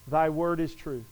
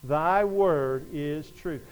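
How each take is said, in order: First: Said in the usual way. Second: Very slow, lower, word by word; slow group recitation. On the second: Shown as a demonstration. Preacher leads congregation saying it together, slow and deliberate. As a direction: lead a congregation through it slowly. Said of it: "Would you say that with me?".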